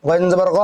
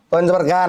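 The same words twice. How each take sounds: First: গ as a throaty gh with rounded vowel; গইন জবর গ with Arabic ghain; correct Arabic ghain. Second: গা with a plain hard g and open "aa"; wrong Bengali-style ghain. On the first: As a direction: say গ from the throat, like "gho". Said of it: "আমরা উচ্চারণ ঠিক করব". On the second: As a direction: say গা as an everyday Bengali g. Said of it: "না". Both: Shown as a demonstration.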